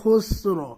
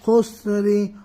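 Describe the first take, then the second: First: The word ends on the r, with no vowel. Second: The word ends with a short i vowel. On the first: The reader stops at this word. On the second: The reading continues without stopping.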